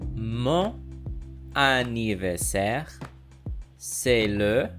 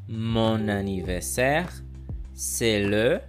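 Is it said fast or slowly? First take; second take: slowly; fast. First: It is said slowly. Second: It is said fast.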